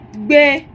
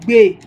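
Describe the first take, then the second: First: The word is said on a high tone. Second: The word is said on a low tone. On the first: It means to live somewhere. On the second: It means to support someone.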